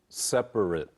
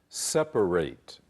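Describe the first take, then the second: First: The final syllable sounds like "it". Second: The final syllable sounds like "eight". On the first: It is used as an adjective or noun. "如果是变成呃这个形容词或名词的时候，注意听，会变成是" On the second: It is used as a verb. "当你是这个动词 verb 的时候，要发成"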